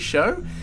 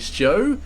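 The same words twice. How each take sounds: First: The name is said without a J sound. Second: The name is said with a J sound. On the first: The speaker calls it right. "the J is definitely silent" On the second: The speaker calls it wrong. "I've been saying Show for I don't know how many tournaments"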